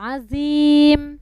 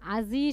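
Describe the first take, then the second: First: The word ends with a clear m sound. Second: The word ends without the final m sound. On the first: The speaker calls it right. "আজিম শেষে কিন্তু মিম আছে" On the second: The speaker calls it wrong. "আজি শুনতে পাচ্ছি আমি"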